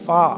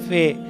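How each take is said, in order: First: The letter name ends in an 'a' vowel. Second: The letter name ends in an 'e' vowel. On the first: This is how it will be read now. "इसको हम अलिफ के साथ पढ़ेंगे" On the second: This is how it used to be read. "अब ये फे पढ़ते थे हम"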